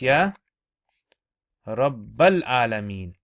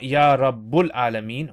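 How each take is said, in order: First: The vowel after Rabb is an a. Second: The vowel after Rabb is a u. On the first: The speaker calls it right. "What is it? It's" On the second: The speaker calls it wrong. "big mistake. Grammatically it's wrong"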